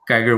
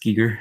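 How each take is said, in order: First: The name is said with an English accent. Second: The name is said with a German accent. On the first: This is an acceptable everyday pronunciation. "Geiger works too" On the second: This is the proper, original pronunciation. "if if you wanna be proper and, like, have a little bit of a German accent, it's Giger"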